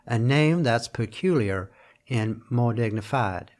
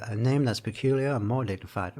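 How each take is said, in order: First: Slow southern American drawl, stretching "dignified". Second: Said in the usual way. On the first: Shown as a demonstration. Lecturer showing the line in a southern drawl, slow. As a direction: lean into a lazy southern drawl, slowly. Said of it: "so it would have been a southern drawl". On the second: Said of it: "also works, right?".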